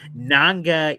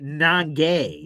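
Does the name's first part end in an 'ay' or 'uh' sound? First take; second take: uh; ay. First: The name's first part ends in an 'uh' sound. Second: The name's first part ends in an 'ay' sound. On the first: The speaker calls it right. "It's Nanga Iboko" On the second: The speaker calls it wrong.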